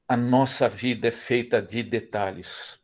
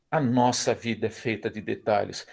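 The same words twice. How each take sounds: First: Slow emphasis. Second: Said in the usual way. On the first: Shown as a demonstration.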